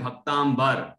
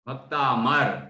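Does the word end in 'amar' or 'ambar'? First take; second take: ambar; amar. First: The word ends with a nasal 'ambar' sound. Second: The word ends with a plain 'amar' sound. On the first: It would mean devotee plus sky. The speaker calls it wrong. "कुछ लोग बोलते हैं भक्तांबर, बर नहीं है" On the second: It means devotee plus immortal gods. The speaker calls it right. "भक्तामर, भक्त plus अमर"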